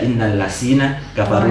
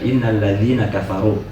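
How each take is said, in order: First: The middle consonant is a z sound. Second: The middle consonant is a soft th sound. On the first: The speaker calls it wrong. "Kalau dia tidak perbaiki tajwid, dia bisa baca" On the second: The speaker calls it right. "di situ huruf huruf dzal"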